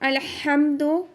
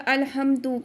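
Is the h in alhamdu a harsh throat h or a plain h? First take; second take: harsh h; plain h. First: The h is a harsh sound from the throat. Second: The h is a plain, soft breathy sound. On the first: The speaker calls it right. "ये जो हा है ना ये हलक से अदा होगा" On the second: The speaker calls it wrong. "उसकी जगह दूसरे वाला हा हमने पढ़ दिया"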